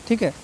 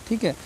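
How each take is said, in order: Both takes have the same delivery.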